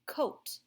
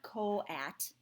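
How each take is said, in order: First: Said in the usual way. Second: Co-at split into "co" and "at"; two separate vowels. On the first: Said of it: "This makes a O sound". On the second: Shown as a demonstration. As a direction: say co-at slowly as two syllables. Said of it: "It's not co-at".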